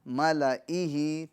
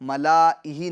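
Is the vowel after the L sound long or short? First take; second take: short; long. First: The vowel after the L is kept short. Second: The vowel after the L is drawn out long. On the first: The speaker calls it right. "बल्कि मलइही मलइही" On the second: The speaker calls it wrong. "लाम के अलिफ को हमें नहीं पढ़ना है, यानी मलाइही मलाइही नहीं पढ़ना है"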